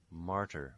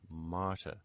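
First: The word ends with an R-colored vowel. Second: The word ends with a plain schwa, no R.

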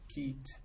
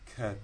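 First: The vowel is a tense 'ee' sound. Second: The vowel is a central 'uh' sound. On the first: "I'll start up in fleece territory" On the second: "that's clearly no longer in the kit area. It doesn't sound right"

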